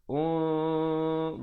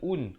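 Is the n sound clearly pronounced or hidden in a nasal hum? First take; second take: hidden; clear. First: The n is hidden in a held nasal hum. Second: The n is pronounced clearly and distinctly. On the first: The speaker calls it right. "ikhfa dua harakat" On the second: The speaker calls it wrong. "bukan un. Kalau un jadi izhar"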